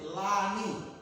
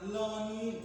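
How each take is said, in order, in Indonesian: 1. Vokal pertama terdengar seperti a. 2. Vokal pertama terdengar seperti o. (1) "tapi Lani" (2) "bukan Loni"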